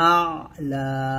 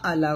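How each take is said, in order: First: The opening sound is pressed from the throat. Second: The opening sound is plain, without throat pressure. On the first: The speaker calls it right. "চাপ দিয়ে" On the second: The speaker calls it wrong. "আ'লা বলবেন না"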